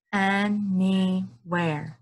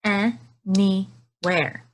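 First: Anywhere drawn out slowly, each syllable its own beat. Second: Anywhere said slowly, beat by beat for clapping; clapped syllables. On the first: Teacher showing chin trick to kids, slow syllables. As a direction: stretch Anywhere into slow beats. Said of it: "wash my chin right here". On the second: Teacher clapping along with kids, slow beats. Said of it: "Clap it with me". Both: Shown as a demonstration.

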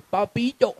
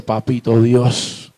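First: Put-on high, soft little-girl pleading; little daughter's voice. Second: Slow, low address to God; pleading prayer. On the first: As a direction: coax Daddy in a tiny, high voice. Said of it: "ojitos y me dice". (vocecita aguda de niña mimosa) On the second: Acted. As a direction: pray slowly and low, as a child to Father. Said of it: "te arrodillas y le pides". (súplica lenta y grave a Dios)

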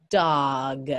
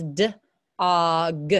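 First: "dog" joined as one word, low and deliberate; blended word. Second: "D-og" split into d, pause, og; sounding out. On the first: Teacher blending the word for students, said whole. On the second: Teacher showing students how dog is built, sounded out. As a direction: break "D-og" slowly in two parts. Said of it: "Look at this". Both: Shown as a demonstration.

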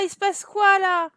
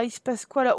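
First: Il se passe quoi là? said higher, louder, in disbelief; surprised. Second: Said in the usual way. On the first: Real, not acted. Seeing the game glitch, il se passe quoi là? amazed. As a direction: ask il se passe quoi là? as if stunned.

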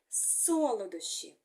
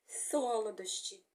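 First: Said in the usual way. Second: "солодощі" with the tongue caught between the teeth, S turning to TH; lisped S. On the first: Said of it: "А виходить солодощі". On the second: Shown as a demonstration. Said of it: "Язичок застряє між зубками".

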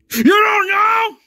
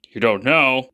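First: High, loud, slow disbelieving scream. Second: Said in the usual way. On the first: Acted. Father screaming at his son in disbelief. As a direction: shriek it in disbelief. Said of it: "stop screaming".

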